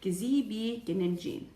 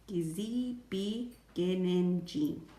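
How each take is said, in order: First: The phrase is said at a normal pace. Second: The phrase is said slowly and deliberately.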